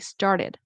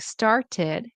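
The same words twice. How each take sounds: First: The middle t is a quick, soft flap. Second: The middle t is a clear, crisp t. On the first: The speaker calls it right. "you want to say" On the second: The speaker calls it wrong. "Instead of saying"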